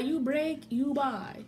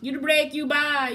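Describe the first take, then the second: First: Said in the usual way. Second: "You break, you buy" said louder and higher; loud declaration. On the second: Real, not acted. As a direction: announces the rule with force.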